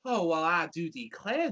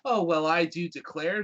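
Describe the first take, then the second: First: It is said in a Southern American accent. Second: It is said in a plain, neutral accent. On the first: The speaker calls it right. "I say it in a southern accent" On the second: The speaker calls it wrong. "That sounds stupid"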